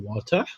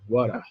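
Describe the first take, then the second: First: The middle consonant is a crisp, strong T. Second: The middle consonant sounds almost like an R. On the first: "o inglês britânico é water, o T é bem mais" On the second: "o inglês americano é um som quase que de R"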